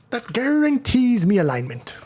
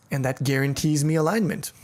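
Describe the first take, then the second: First: Badly faked Irish accent, pitched high. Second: Said in the usual way. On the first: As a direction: attempt a hammed-up Irish lilt and botch it. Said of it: "horrible attempt at an Irish accent". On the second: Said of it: "That was a horrible accent".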